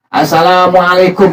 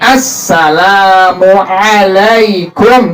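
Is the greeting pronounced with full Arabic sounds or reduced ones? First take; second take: reduced; full. First: Some required Arabic sounds are reduced or replaced. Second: The doubled s, long l and ain are full. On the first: The speaker calls it wrong. "Nggak boleh, batal" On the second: The speaker calls it right. "minimal tuh"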